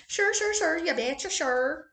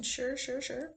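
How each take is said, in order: First: Put-on a light, higher-pitched Minnesota accent on "sure"; playful Minnesota accent, "You betcha" bounced up; mock Minnesota accent. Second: Said in the usual way. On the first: Vlogger trying out a Minnesota accent for fun. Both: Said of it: "that Minnesota. Minnesota accent".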